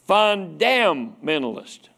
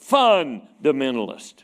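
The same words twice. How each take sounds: First: The stress is on the second syllable, dam. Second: The stress is on the first syllable, fun. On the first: Believers are people who condemn others. "some of them put the emphasis on damn" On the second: Believers are people who can't have fun. "sometimes they put the emphasis on the fun"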